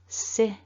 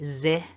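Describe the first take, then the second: First: The first consonant is an unvoiced s sound. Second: The first consonant is a voiced z sound. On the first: The speaker calls it right. "nice short si with the I" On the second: The speaker calls it wrong. "No voicing, otherwise it would be zi. Don't want that"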